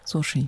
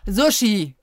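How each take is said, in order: First: It is said at normal, softer volume. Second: It is said loudly.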